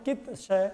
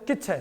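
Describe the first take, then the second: First: The two parts are said slowly and separately. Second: The two parts are run together into one word. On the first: "यदि हम धीरे धीरे बोलेंगे" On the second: "यदि इकट्ठा बोलना है"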